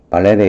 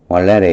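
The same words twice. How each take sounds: First: 발레레 said with a b sound, balere; b sound pronunciation. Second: 발레레 said with a w sound, walere; w sound pronunciation. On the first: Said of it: "발레레 이렇게 해도 괜찮아요". (발레레를 b 소리로 발레레라고 발음) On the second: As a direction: open 발레레 with a w glide like walere. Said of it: "발음을 원래는 W로 발음해요". (발레레를 w 소리로 왈레레라고 발음) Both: Shown as a demonstration.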